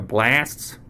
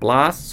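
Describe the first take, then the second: First: It is said with an American vowel. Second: It is said with a British vowel.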